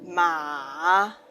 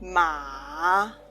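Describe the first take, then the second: First: The pitch dips low then rises. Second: The same.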